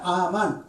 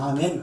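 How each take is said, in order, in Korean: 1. 두 번째 모음은 열린 'a' 소리입니다. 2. 두 번째 모음은 'e' 소리입니다. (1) "아만 읽을 때는 아 발음 나거든요" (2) "그냥 아멘 그렇게 하는 거야"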